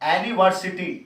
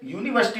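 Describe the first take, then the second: First: The word begins with a plain vowel sound. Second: The word begins with a 'yu' sound. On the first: The word would then take 'an'. "अगर हां ये होता एनिवर्सिटी, ... यानी कि ए की आवाज देता" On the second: The word takes 'a'. "यूनिवर्सिटी तो यू आ रहा"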